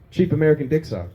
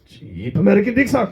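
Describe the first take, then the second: First: It is said in his plain voice. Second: It is said in a put-on accent.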